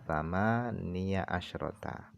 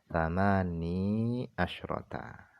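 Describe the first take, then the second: First: The first word ends with a voiced 'ya' syllable. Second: The first word ends without any 'ya' vowel. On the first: "engkau membaca fathah ya-nya" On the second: "mensukunkan ya-nya"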